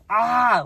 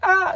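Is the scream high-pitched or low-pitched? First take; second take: low-pitched; high-pitched. First: The scream is lower and less shrill. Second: The scream is high and shrill. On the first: The speaker calls it wrong. "but not like that" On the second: The speaker calls it right. "I screamed like a girl"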